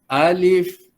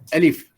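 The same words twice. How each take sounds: First: The first vowel is drawn out long. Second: The first vowel is kept short. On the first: The speaker calls it wrong. "bunyi panjang begitu tak mau ya" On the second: The speaker calls it right. "Sebut begitu saja"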